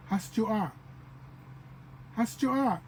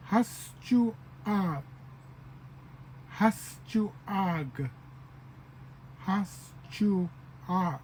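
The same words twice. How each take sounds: First: "Haschuag" run together at natural speed; joined-up pronunciation. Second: "Haschuag" slowly in three parts, has-chu-ag; added final sound. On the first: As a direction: say "Haschuag" as one flowing word. Teacher joins up the syllables. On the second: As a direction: draw out "Haschuag", separating the final "ah". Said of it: "another, um, little sound". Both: Shown as a demonstration.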